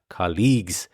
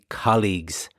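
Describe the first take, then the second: First: The stress is on the second syllable. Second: The stress is on the first syllable. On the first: The speaker calls it wrong. "stress the second syllable rather than the first one" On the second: The speaker calls it right. "the stress is on the first syllable"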